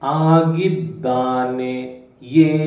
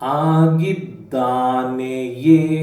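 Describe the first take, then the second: First: The word is said with its full ending. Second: The same.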